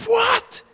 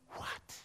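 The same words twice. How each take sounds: First: Very high, loud outburst; astonished shout. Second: Barely audible, stunned question; hushed disbelief. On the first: Child hearing the sling hit, astonished shout. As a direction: explode in disbelief. Child astounded at Goliath's fall. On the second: Child hearing David ran forward, hushed disbelief. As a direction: breathe it out in soft astonishment. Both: Acted.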